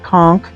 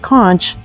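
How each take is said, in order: First: It uses the Southern US pronunciation of the word. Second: It uses the Northern US pronunciation of the word.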